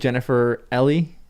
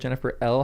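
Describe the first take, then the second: First: The surname is said with two syllables. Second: The surname is said with one syllable. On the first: This is the pronunciation learned later. The speaker calls it right. "I think it's Ellie now" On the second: This is the pronunciation used in the past. The speaker calls it wrong. "how I used to say it"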